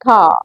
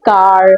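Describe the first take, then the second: First: The final r sound is softened or dropped. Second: The final r sound is clearly pronounced. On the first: The speaker calls it right. "You have to say car" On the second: The speaker calls it wrong. "You don't have to say car"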